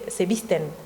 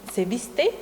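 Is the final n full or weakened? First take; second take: full; weakened. First: The final n is fully pronounced. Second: The final n is dropped or weakened. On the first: This is the standard form. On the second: This is the local dialect form.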